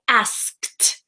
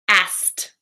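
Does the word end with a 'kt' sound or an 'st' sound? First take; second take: kt; st. First: The word ends with a clear 'kt' sound. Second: The word ends with a simple 'st' sound. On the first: The speaker calls it wrong. "you have probably practiced it like asked, kt, kt" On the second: The speaker calls it right. "pronounce it like asked, A S S T"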